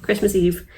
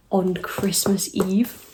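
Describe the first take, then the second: First: Said in the usual way. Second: Hushed, scandalized whisper; a whisper slowed right down. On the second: Real, not acted. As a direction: breathe it out in disbelief.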